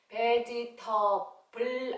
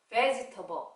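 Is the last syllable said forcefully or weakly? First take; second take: forcefully; weakly. First: The final syllable is said with force. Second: The final syllable is said weakly and relaxed. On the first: The speaker calls it wrong. "vegetable 아니고요. 힘 빼요" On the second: The speaker calls it right. "마지막에 힘을 빼서 vegetable 이렇게요"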